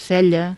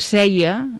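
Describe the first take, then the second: First: The middle consonant is a palatal L sound. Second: The middle consonant is a Y sound. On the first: This is the standard form. The speaker calls it right. "en comptes de" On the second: This is a colloquial dialect form. The speaker calls it wrong. "pronuncien aquesta doble L com si fos una I"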